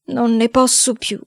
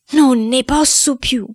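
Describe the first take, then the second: First: Slow, higher-pitched lament; weary, drawn-out complaint; exhausted despair. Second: Slow, high wail of despair; drawn-out, high-pitched desperate cry; mounting despair. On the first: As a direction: sigh it out slowly, worn down. Despairing boy, first take. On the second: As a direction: wail it slowly, at the end of endurance. Despairing boy, stronger repeat. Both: Acted.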